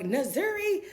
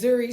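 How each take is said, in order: First: The name begins with an added 'na' syllable. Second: The name begins with a bare N sound. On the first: The speaker calls it wrong. "they don't pronounce it correctly" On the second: The speaker calls it right. "my name is [name], but it's N Z U R I"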